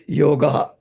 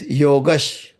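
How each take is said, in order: First: The word ends without a sh sound. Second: The word ends with a sh sound. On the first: The word stands on its own. "the correct pronunciation is the Yoga" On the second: The next word begins with cha. "it becomes converted into sha"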